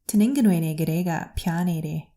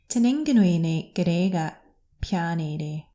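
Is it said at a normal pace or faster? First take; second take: faster; normal. First: It is said at a faster pace. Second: It is said at a normal pace.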